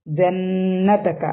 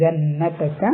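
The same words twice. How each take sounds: First: "ജന്നതക" with a long hummed double n; two-count ghunnah. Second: "ജന്നതക" with the double n hummed briefly; two-count ghunnah. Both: Shown as a demonstration. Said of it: "രണ്ട് count മണിച്ചിട്ട്".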